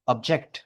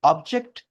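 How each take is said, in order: First: object with a strong final syllable; second-syllable stress. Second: object with a strong opening syllable; first-syllable stress. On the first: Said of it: "second syllable पे stress करोगे". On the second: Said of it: "पहला syllable पे stress करोगे". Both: Shown as a demonstration.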